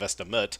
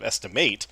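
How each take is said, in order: First: The last syllable is reduced to a short 'it'. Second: The last syllable has a full 'ate' vowel. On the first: The word is used as an adjective. "instead of estimate" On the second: The word is used as a verb. "Steve's pronunciation of estimate"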